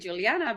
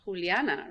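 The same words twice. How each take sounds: First: The name is said with an English accent. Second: The name is said with a Spanish accent.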